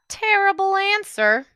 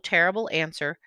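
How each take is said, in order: First: It is read somewhat more slowly. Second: It is read very quickly and flatly. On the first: "Still kind of fast" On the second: "Too fast. No inflection"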